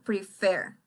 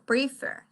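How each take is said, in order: First: The stress is on the second syllable. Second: The stress is on the first syllable. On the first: The speaker calls it right. "La mayor fuerza de voz está en la segunda. Yo digo prefer" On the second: The speaker calls it wrong. "no digo prefer"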